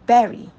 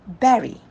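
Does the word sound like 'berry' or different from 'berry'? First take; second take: like berry; like berry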